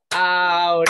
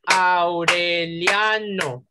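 First: Aureliano split Au-re-li-a-no, with I and A apart; five separate syllables. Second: Aureliano slowly split Au-re-lia-no, lia as one syllable; four slow syllables. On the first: Teacher asks class how many syllables, Aureliano broken as Au-re-li-a-no. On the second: Teacher offers class the second option, Aureliano slowly as Au-re-lia-no. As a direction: stretch Aureliano, gliding I into A. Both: Shown as a demonstration. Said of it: "¿Cuántas sílabas tendría?".

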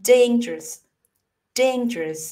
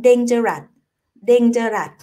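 First: "dangerous" squeezed to "dayn-jrus"; two-syllable dangerous. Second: "dangerous" as Thai-style "deng-ja-rat"; "dangerous" with a full last syllable, "deng-ja-rat"; three-syllable dangerous. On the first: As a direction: say "dangerous" in two syllables, middle vowel dropped. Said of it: "ลองบีบให้มันเป็นสองพยางค์". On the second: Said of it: "สามพยางค์ใช่ไหม?". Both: Shown as a demonstration.

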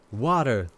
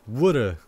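First: Said in the usual way. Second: "Woulda" said as wood-uh, flapped T and no R; regional wooder. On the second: Shown as a demonstration. Mimicking how some people say water, wood-uh. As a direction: say "Woulda" with a short oo vowel like wood. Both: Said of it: "Some people say woulda".

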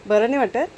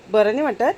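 No difference in how they are said.

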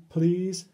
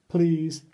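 No difference in how they are said.

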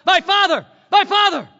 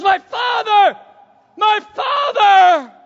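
First: Raised, higher read of the cry. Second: Shouted high and loud, the second drawn out; anguished cry. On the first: A narrator's reading. Preacher reading Elisha's cry over Elijah, raised. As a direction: read it out as a cry, with some lift. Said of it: "cried out". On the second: Acted. Elisha crying after Elijah taken to heaven, full shout. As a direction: cry out to the departing prophet. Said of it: "And he goes".

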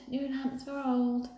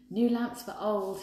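First: Higher, slow hawker's cry; drawn-out street call. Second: Shouting. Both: A narrator's reading. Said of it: "he shouted".

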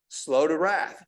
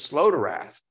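First: Said in the usual way. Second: "slow" drawn out and leaned on, the whole phrase said slowly; stress on slow. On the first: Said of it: "It says slow to wrath". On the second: Shown as a demonstration. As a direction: spell out "slow to wrath" deliberately, weighting "slow".

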